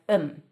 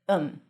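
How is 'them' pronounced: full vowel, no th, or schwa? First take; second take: no th; no th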